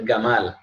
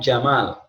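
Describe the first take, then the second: First: The name begins with a hard g sound. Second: The name begins with a j sound. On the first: "Dipanggil Gamal" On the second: "namanya Jamal"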